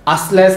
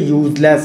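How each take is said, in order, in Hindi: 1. यह शब्द एक सादे 'uh' स्वर से शुरू होता है। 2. यह शब्द 'yoo' ध्वनि से शुरू होता है। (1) "असलेस नहीं पढ़ा जा रहा है इसे" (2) "ये यूजलेस है"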